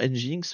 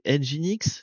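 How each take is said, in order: First: It is said as one word ending like 'jinx'. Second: It is said as 'engine' followed by the letter X. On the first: The speaker calls it wrong. "moi je dis toujours Nginx, mais c'est pas comme ça qu'il faudrait prononcer" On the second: The speaker calls it right. "c'est engine comme, heu, un moteur, engine X"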